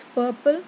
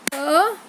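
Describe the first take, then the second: First: Said in the usual way. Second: "Purple" in two loud, separated beats; syllable by syllable. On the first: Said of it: "how we have to pronounce purple". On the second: Shown as a demonstration. Teacher showing two syllables, "Purple" split with a long gap. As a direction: break "Purple" into pur, long pause, ple. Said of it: "two syllable".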